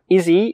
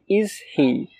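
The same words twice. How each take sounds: First: The words run together quickly as one voiced unit. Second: The two words are said fully and separately.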